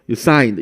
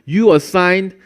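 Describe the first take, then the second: First: The unstressed first syllable is dropped. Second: The unstressed first syllable is clearly heard.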